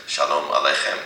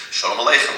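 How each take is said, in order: First: "shalom Aleichem" with a clear "a" in shalom, Hebrew style; Hebrew pronunciation. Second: "Shalom Aleichem" as "sholem aleichem", Yiddish vowels; Yiddish pronunciation. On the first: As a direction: say "shalom Aleichem" the modern Israeli way. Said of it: "they would just pronounce it". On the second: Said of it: "shalom in Yiddish". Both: Shown as a demonstration.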